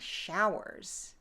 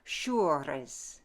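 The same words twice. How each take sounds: First: It has a modern vowel and plain R. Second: It has a French vowel and rolled R. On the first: "in modern English, we'd say showers" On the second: "Frenchify it... change the pronunciation of the long vowel, add that rolled R"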